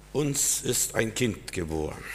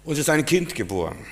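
First: Slow, softer, weight on Uns; solemn stress on Uns. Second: Higher, with Kind hit and falling; stress on Kind. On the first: Pastor announcing the good news slowly, leaning on Uns. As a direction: let Uns land slowly. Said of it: "Das ist diese Top-Meldung des Tages". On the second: Pastor proclaiming the birth again, higher, pushing Kind. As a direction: lift the line and land on Kind. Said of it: "Es hat sich nicht viel geändert". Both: Shown as a demonstration.

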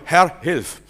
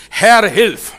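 First: Said in the usual way. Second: Loud, high plea to God; desperate loud prayer cry; loud cry for help. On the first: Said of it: "was ich sag". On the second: Shown as a demonstration. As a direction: call out Herr, hilf urgently. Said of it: "In dem Moment, wo du rufst".

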